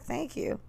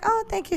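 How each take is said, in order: First: It sounds wary and skeptical. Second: It sounds warm and pleased.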